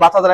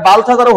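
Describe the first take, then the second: First: বাতহাজার said bat-ha-jar, no L sound; without the L. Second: বালথাজারও said with a clear L, bal-tha-jar; with the L sounded. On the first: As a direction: drop the L, say বাতহাজার. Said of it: "আমরা সবাই এল উচ্চারণ করি না". (এল বাদ দিয়ে বাতহাজার উচ্চারণ) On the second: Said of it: "B A এল আছে". (বালথাজারও উচ্চারণে এল স্পষ্ট করে বলা) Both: Shown as a demonstration.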